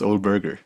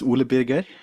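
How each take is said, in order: First: The name has an English pronunciation. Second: The name has a Norwegian pronunciation. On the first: "if I try to pronounce it in English" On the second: "my name is"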